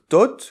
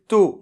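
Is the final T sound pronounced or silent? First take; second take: pronounced; silent. First: The final T sound is pronounced. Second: The final T sound is silent. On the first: The speaker calls it wrong. "on ne doit pas dire tot" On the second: The speaker calls it right. "on doit dire to"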